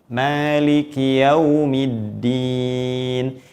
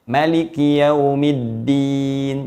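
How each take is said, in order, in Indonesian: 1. Vokal pertama pada Maliki panjang. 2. Vokal pertama pada Maliki pendek.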